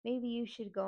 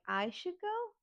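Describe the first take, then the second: First: Said in the usual way. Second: Much higher, incredulous echo question; indignant disbelief. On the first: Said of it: "my aunt and my sister are like". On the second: Retold or imitated. Niece told to leave by her relatives, indignant echo. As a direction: throw it back in outraged disbelief. Throws the suggestion back.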